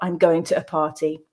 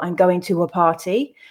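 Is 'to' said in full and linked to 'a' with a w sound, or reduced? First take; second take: reduced; full, linked. First: 'To' is reduced to a weak sound with no w link to 'a'. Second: 'To' is said in full and joined to 'a' with a w sound. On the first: The speaker calls it wrong. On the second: The speaker calls it right. "I'd probably say"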